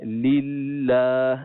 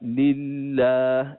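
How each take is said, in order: The two takes are said the same way.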